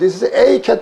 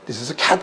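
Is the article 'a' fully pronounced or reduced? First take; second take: full; reduced. First: The article 'a' is fully pronounced as 'ay'. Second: The article 'a' is reduced to a weak vowel. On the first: The speaker calls it wrong. "안 그러거든요" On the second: The speaker calls it right. "요걸 눌러보더니 this is a cat 그러거든요"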